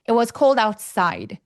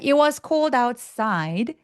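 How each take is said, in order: First: The pitch drops sharply on the last word. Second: The pitch falls then rises on the last word. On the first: The sentence is finished. "하면 끝났죠. side 뚝 떨어지기" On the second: The sentence is not finished yet. "side 내려갔다 올라가시면 돼요"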